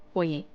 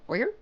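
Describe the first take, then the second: First: "Foyer" ending in an AY sound; alternative pronunciation. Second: "Foyer" ending in ER, questioning; American pronunciation. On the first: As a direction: say "Foyer" as FOY-ay. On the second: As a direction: say "Foyer" as FOY-er, rising. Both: Shown as a demonstration. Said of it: "depends where you're from".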